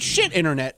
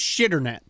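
First: The two words are said separately. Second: The two words are merged into one word. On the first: The speaker calls it wrong. "It's not shit internet" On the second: The speaker calls it right. "It's shitternet"

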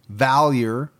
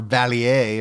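First: The name is pronounced in a plain way. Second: The name is pronounced in a fancy way.

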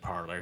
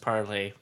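First: The name ends with an "er" sound. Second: The name ends with an "ay" sound. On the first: This is how most people say it. "most people are pronouncing it Parler" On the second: This is the intended pronunciation. "from what I understand, it's Parlay"

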